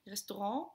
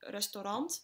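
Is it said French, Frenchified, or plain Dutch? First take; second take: Frenchified; plain Dutch. First: The word is said with a posh French-like pronunciation. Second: The word is said with plain Dutch pronunciation.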